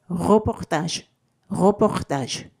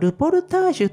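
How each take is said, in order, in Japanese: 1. この単語は、フランス語の発音です。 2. この単語は、日本語の外来語の発音です。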